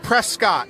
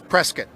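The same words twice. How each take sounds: First: The name is pronounced just as it is spelled. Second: The name is pronounced the way locals say it. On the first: The speaker calls it wrong. "you look at it, it looks like Prescott. Boy, don't say that" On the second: The speaker calls it right. "The local pronunciation and the correct pronunciation"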